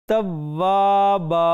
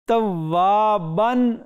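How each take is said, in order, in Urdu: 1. لفظ لمبے a کی آواز پر ختم ہوتا ہے۔ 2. لفظ n کی آواز پر ختم ہوتا ہے۔ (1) "ایک ہم نے گرا دی، ایک باقی رہی توابا" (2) "توابن دو زبر تھیں"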